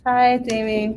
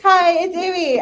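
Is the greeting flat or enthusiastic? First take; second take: flat; enthusiastic. First: The greeting sounds flat and low in energy. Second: The greeting sounds lively and enthusiastic.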